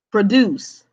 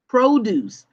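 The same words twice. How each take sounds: First: Produce with a weak first syllable, stress on DUCE; verb pro-DUCE. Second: Produce with stress on PRO, full long o; noun PRO-duce. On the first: Teacher naming the verb for students, pro-DUCE. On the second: Teacher contrasting the food word for students, PRO-duce. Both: Shown as a demonstration. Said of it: "We are talking about".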